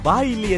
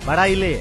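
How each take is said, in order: First: It is said in standard Kannada. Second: It is said in the local Chamarajanagar dialect. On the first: "ನಾವು ಮಾಮೂಲಾಗಿ ಮಾತಾಡೋ" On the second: "ಇಲ್ಲಿ ... ವಿಶೇಷವಾಗಿ ಮಾತಾಡ್ತಾರೆ"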